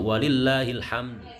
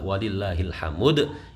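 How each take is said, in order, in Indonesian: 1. m dan d disambung tanpa vokal. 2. Ada vokal penuh yang disisipkan di antara m dan d. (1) "Maka yang benar" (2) "itu maka salah"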